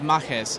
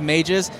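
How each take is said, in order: First: The word is said with Spanish-influenced sounds. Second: The word is said with plain English sounds. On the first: This is how it is said inside the story world. "but in world, it's pronounced Majes" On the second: This is the ordinary real-world word. "we call it City of Mages because that's actually a word"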